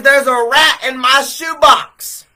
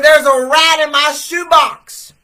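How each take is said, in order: First: Loud, high, slow cry of alarm; panicked shout. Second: High, loud and slow, pushing harder; louder panicked shout. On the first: Young man shouting to the store clerk about the rat, panicked. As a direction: yell it like you just saw a rat. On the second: Young man repeating to the clerk about the rat, even louder. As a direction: say it again, more frantic. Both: Retold or imitated.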